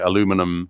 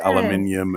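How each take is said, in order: First: It is said with the American pronunciation. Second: It is said with the British pronunciation. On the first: "you might say aluminum" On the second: "we say"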